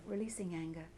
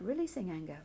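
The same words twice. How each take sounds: First: The same words again, much softer; a quiet, falling second repetition; softer repeat. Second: Said in the usual way. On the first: Shown as a demonstration. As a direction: let it fade as you let go. Repeated tapping mantra.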